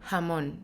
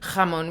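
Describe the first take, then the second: First: The J is a very soft, breathy sound. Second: The J is a strong, harsh throat sound. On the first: "We say jamon. So it's always like this super soft J" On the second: "we don't say like"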